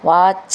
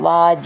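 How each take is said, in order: First: The second consonant is a voiceless 'ch' sound. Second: The second consonant is a voiced 'j' sound. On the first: The speaker calls it right. "വാച എന്നാണ്" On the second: The speaker calls it wrong. "ജ എന്നാവരുത്, വാച എന്നാവരുത്"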